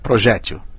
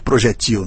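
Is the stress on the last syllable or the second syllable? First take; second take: second; last. First: The stress is on the second syllable. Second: The stress is on the last syllable. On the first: The speaker calls it right. "Não, é projétil. Paroxítona" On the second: The speaker calls it wrong. "tem uns malucos que chamam de projetil"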